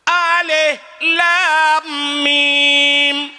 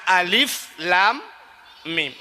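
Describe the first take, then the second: First: The first word ends with an h sound. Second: The first word ends with an f sound. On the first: The speaker calls it wrong. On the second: The speaker calls it right. "Yang na alif lam mim"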